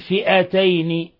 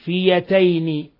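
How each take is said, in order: First: The middle of the word has a glottal stop. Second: The middle of the word has a y sound. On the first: "بالهمز" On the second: "بإبدال الهمزة ياء"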